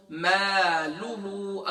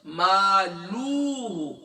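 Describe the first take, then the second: First: "مالہ" with long maa and quick lu; held first vowel, short lu in "مالہ"; short lam. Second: "مالوہ" with a long drawn luu; slow "مالوہ" as if a waw were added; overstretched lam. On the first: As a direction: recite "مالہ" slowly, not stretching the lam. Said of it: "لام کے بعد". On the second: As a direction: demonstrate the error, dragging the lu in "مالوہ". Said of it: "لام کے بعد اگر آپ نے واو کا اضافہ". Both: Shown as a demonstration.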